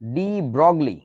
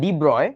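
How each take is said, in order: First: The name is read as spelled, ending 'glee'. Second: The name ends in a short 'broy' sound. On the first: The speaker calls it wrong. "মানে ইংরেজিতে বানানটা এরকম" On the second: The speaker calls it right. "তবে উচ্চারণটা ডি ব্রয়"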